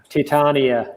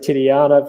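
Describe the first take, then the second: First: The name is said with three syllables, Ti-tan-ia. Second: The name has an extra syllable, Ti-ti-ana. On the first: The speaker calls it right. "My apologies" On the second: The speaker calls it wrong. "I said Titiana"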